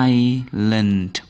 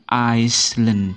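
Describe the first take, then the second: First: The s is silent in the middle. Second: An s sound is heard in the middle. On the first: The speaker calls it right. "ini membacanya island" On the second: The speaker calls it wrong. "Bukan Iceland"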